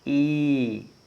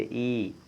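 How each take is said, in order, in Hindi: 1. स्वर खींचकर और लंबा बोला जाता है। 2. स्वर जल्दी से और छोटा बोला जाता है। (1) "उसमें समय लगाएंगे, तीन से चार सेकंड" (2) "जल्दी से पढ़ते हैं, एक दो सेकंड लगाएंगे"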